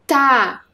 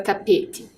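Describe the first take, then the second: First: "Tapete" split into ta, pe, te with long pauses; syllable by syllable. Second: Said in the usual way. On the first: Shown as a demonstration. Teacher helping pupils find the first syllable, "Tapete" split apart. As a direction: break "Tapete" slowly into three separate syllables. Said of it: "Qual é a primeira sílaba".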